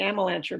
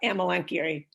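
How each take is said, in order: First: Some vowels are run together, not all sounded. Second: Each vowel is sounded out separately. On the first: This is the usual everyday pronunciation. "We say Amelanchier" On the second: This is the classical Latin pronunciation. "You pronounce each of the vowels in the syllable"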